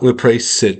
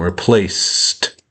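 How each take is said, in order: First: The ending is an extra syllable with a vowel. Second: The ending is an S sound then a T. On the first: The speaker calls it wrong. "Not replace it. No, there's no, even though there's a vowel, there's no vowel sound" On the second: The speaker calls it right. "There's the S sound and then a T sound"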